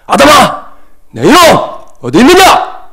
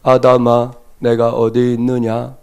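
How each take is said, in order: First: It is said in an angry voice. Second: It is read flatly, like a textbook.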